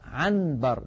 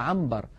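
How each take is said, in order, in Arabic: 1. الصوت قبل b هو n صريحة. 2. الصوت قبل b هو m. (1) "لا ينطق النون صريحة هكذا" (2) "يقلب النون الساكنة إذا أتى بعدها باء إلى ميم"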